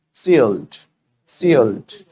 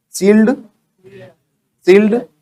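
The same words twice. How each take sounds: First: Sealed as low, falling "see-uhlt"; gliding dark L. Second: Sealed as high, rising "seeld"; wrong plain L. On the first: Teacher drills learners, sealed as falling "see-uhlt". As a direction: let sealed glide down into a dark L. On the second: Teacher mimics learners' mistake, sealed as rising "seeld". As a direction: say sealed straight and high, no glide. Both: Shown as a demonstration. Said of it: "सील्ड नहीं, सील्ड".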